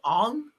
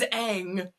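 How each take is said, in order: First: The name is said with an 'ong' vowel. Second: The name is said with an 'ah' vowel. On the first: This is how the movie said the name. The speaker calls it wrong. "in the movie they were calling him Ong" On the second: This is the character's real name. The speaker calls it right. "His name is Aang"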